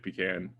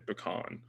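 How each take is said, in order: First: It is said in a plain, everyday way. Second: It is said in a fancier, posher way. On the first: This is how the speaker normally says it. "I think I say pecan" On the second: The speaker wants to sound sophisticated. "if I wanted to sound fancy, I'd say pecan"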